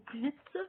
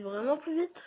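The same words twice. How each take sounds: First: Said in the usual way. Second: "vraiment plus vite" higher, rising on "vite"; insistance sur VRAIMENT. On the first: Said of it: "quand je dis plus vite". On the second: Real, not acted. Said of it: "Et quand je dis plus vite". (« vraiment plus vite » appuyé, plus aigu, montant sur « vite »)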